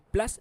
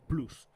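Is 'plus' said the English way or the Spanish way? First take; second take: English; Spanish. First: The vowel is an English 'uh' sound. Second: The vowel is a Spanish 'oo' sound. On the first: The speaker calls it wrong. "Para mí Plus no existe" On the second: The speaker calls it right. "es Plus"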